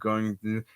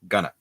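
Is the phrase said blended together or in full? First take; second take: full; blended. First: Both words are said fully and separately. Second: The words are run together into one reduced word.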